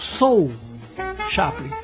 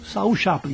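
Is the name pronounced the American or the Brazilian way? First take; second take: American; Brazilian. First: The name is pronounced the American way. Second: The name is pronounced the Brazilian way. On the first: "os americanos falam Soul Chaplin" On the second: "Para nós aqui é Saul"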